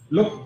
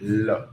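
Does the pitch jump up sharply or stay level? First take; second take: jumps up; level. First: The word is clipped and the pitch jumps up. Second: The word is said calmly with a level pitch. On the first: The speaker calls it wrong. "đừng làm look" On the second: The speaker calls it right. "nói từ từ bình thường"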